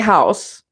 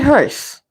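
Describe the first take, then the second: First: The vowel is said with a wide-open mouth. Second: The vowel is said with barely moving lips. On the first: The speaker calls it wrong. "because that's opening your mouth" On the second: The speaker calls it right. "Don't open your mouth"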